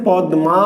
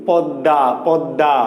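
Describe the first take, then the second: First: "পদ্মা" slowly as pad-ma; written form. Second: "পদ্মা" lower, as pad-da; no m in "পদ্মা", just doubled d; spoken form. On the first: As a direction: spell out d and m in "পদ্মা". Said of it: "তাহলে লেখা আছে". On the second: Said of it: "কিন্তু আমরা উচ্চারণ করছি কি". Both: Shown as a demonstration.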